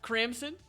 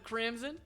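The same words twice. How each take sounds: First: The middle consonant is a hissing S sound. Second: The middle consonant is a buzzing Z sound. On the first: The speaker calls it wrong. "he says it with an S instead of a Z sound" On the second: The speaker calls it right. "instead of a Z"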